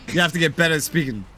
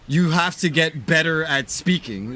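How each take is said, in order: First: The words run together in a casual accent. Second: Each word is carefully and distinctly enunciated. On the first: "that's how I would say it with my just normal accent" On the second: "I wouldn't say"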